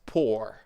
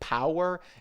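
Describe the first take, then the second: First: The word is said with one syllable. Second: The word is said with two syllables. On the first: The speaker calls it right. "It's pour" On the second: The speaker calls it wrong. "you said a little bit like power"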